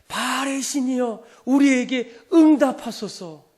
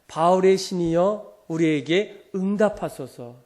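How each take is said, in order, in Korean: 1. 이 부름은 훨씬 더 큰 목소리로 말해집니다. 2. 이 부름은 보통 크기의 목소리로 말해집니다.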